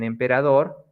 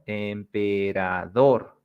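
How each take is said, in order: First: Said in the usual way. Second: "emperador" slowly split as em-pe-ra-DOR; stress on dor. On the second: Shown as a demonstration. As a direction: stretch "emperador" syllable by syllable up to DOR. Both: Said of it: "So this is dor".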